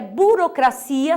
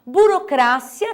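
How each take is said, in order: First: Burocracia said bu-ro-cra-CI-a; Portuguese stress. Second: Burocracia said slowly, bu-ro-CRA-cia; Spanish stress. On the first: Teacher giving the Portuguese form, burocracia stressed on CI. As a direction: lean on CI in burocracia. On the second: Teacher contrasting tonic syllables, Burocracia stressed on CRA. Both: Shown as a demonstration. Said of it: "sílaba tônica em português é".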